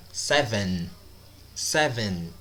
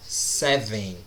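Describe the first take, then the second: First: "Seven" closing on a clear, held N; "Seven" falling, with the last N fully pronounced; final N sounded. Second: "seven" ending in a nasal vowel, seh-veing; "seven" mispronounced Brazilian style, no real N; dropped final N. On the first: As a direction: land the tongue on the N ending "Seven". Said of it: "falo a letra N aí". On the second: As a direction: let the end of "seven" go nasal without closing the N. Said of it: "Não é seven". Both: Shown as a demonstration.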